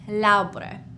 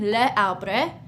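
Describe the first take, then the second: First: The vowel of le is dropped before arbre. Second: The vowel of le is kept before arbre. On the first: The speaker calls it right. "we would say l'arbre" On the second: The speaker calls it wrong. "instead of saying le arbre"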